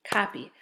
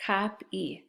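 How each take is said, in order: First: Said in the usual way. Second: COP, then EE, with a gap; split syllables. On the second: Shown as a demonstration. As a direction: sound out copy in two parts, cop and ee. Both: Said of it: "Let's read these words".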